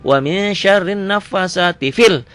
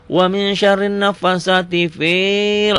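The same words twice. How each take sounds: First: "fil" with a short, quick i; recited, ending on a brief unstretched "fil". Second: "fil" with the i stretched out long; recited with an overlong, held "fiiil"; wrongly long fi. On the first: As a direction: cut the vowel short in "fil". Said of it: "fi-nya pendek". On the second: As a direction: drag out the vowel in "fil". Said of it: "Enggak, fi-nya pendek". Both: Shown as a demonstration.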